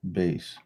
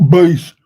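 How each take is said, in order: First: Said in the usual way. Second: Bass shouted high and loud. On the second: Real, not acted. Calling out Bass while looking for a bass line, shouted. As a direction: belt out Bass all of a sudden. Repeating a word while making beats.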